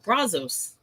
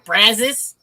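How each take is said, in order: First: It is said with a foreign-accented pronunciation. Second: It is said with a local Texan pronunciation. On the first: This is how a newcomer says it. "I would pronounce it Brazos" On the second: This is how the locals say it. "they pronounce it here Brazos"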